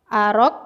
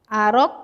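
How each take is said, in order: No difference in how they are said.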